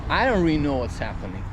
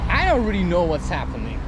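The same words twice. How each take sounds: The two takes are said the same way.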